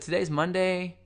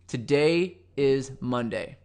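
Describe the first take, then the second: First: The pitch rises at the end. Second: The pitch falls at the end. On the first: The speaker seems unsure, as if asking. The speaker calls it wrong. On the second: The speaker is sure of what is said. The speaker calls it right.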